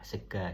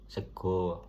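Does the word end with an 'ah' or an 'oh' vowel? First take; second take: ah; oh. First: The final vowel is an open 'ah' sound. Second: The final vowel is a rounded 'oh' sound. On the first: This is the Ngapak (Banyumasan) way of saying it. "kalau di Purbalingga itu bilangnya sega pakai A" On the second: This is the Jogja way of saying it. "kalau di Jogja sego gitu"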